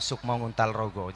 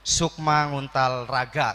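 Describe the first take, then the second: First: It is said in standard Javanese. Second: It is said in the Cilacap dialect.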